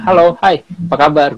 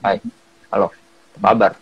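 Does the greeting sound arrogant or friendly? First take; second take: friendly; arrogant. First: The greeting sounds warm and friendly. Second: The greeting sounds flat and arrogant.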